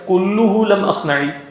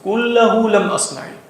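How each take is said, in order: First: The vowel after kull is a short u. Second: The vowel after kull is a short a. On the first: None of the sins were committed by me. "कुल को मुब्तदा बनाकर" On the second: Not all of the sins were committed by me. "अगर इसको मनसूब पढ़ेंगे"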